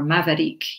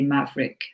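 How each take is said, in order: First: The word is said with three syllables. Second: The word is said with two syllables. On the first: The speaker calls it wrong. "They would separate it into three syllables" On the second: The speaker calls it right. "we might just use two syllables and say Maverick"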